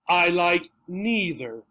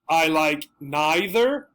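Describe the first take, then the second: First: Neither has an 'ee' vowel after the n. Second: Neither has an 'eye' vowel after the n.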